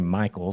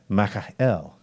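First: The name is pronounced the usual English way. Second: The name is pronounced the Hebrew way. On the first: The speaker calls it wrong. "it's not actually Michael. That's an English version" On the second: The speaker calls it right. "It's actually Michael, when you think of it in the Hebrew sense"

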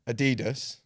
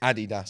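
First: The name is said the American way. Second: The name is said a non-American way. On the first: The speaker calls it wrong. "If you're from America, you're probably pronouncing the sneaker brand Adidas" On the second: The speaker calls it right. "It's Adidas"

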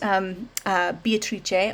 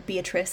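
First: The name is pronounced the Italian way. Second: The name is pronounced the English way.

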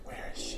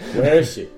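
First: It is whispered. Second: It is spoken aloud.

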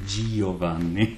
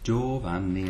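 First: The i is sounded as a separate vowel. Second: The i is silent, only softening the consonant. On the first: The speaker calls it wrong. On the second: The speaker calls it right.

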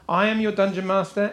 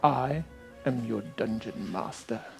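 First: It is said plainly, with little energy. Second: It is said dramatically, with more energy.

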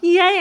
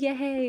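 First: It is said with more excitement. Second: It is said with little excitement.

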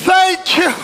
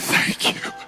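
First: It is said loudly. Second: It is said quietly.

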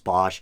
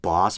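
First: The name ends with an sh sound. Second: The name ends with a plain s sound. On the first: This is how most people say it. "I think everyone says Hieronymus Bosch" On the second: This is the technically correct pronunciation. "it's supposed to be pronounced Boss"

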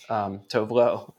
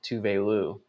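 First: The first syllable sounds like 'toe'. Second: The first syllable sounds like 'too'. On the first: This is the name as the speaker long assumed it. The speaker calls it wrong. "I always thought it was [name]" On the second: This is the name as others said it on the show. The speaker calls it right. "they pronounced it Tuvelu"

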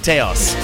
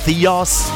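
First: The name is said with Swedish pronunciation. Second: The name is said with English pronunciation. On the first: "Swedes say Theos" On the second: "if you're English speaking"

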